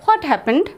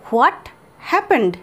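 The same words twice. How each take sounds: First: Said in the usual way. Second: A pause between what and happened; split into words. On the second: Shown as a demonstration. Teacher showing students each word separately. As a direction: break it into two clear words. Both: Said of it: "এটাকে আমরা এভাবে বলতে পারি".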